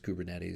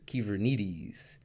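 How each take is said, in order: First: It is said with an English pronunciation. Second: It is said with a Greek pronunciation. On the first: This is how the community says the name. "the founders of Kubernetes pronounce it as Kubernetes" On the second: This is the original Greek word. "the Greek word uh, that can be pronounced as Kyvernetes"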